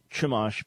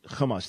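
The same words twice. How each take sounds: First: Church ch opening Chumash; Chumash with English ch. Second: Throaty Hebrew ch opening Chumash; Chumash with guttural ch. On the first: Host shows Robert's error, Chumash with English ch. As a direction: mispronounce Chumash with hard ch. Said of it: "it's not Chumash". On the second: Host teaches Robert the right word, guttural Chumash. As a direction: scrape the start of Chumash. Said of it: "the pronunciation". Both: Shown as a demonstration.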